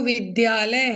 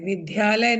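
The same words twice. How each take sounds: First: The consonant before 'ya' is a plain d. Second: The consonant before 'ya' is an aspirated dh. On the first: The speaker calls it right. "वो विद्यालय है" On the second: The speaker calls it wrong. "विद्यालय नहीं है"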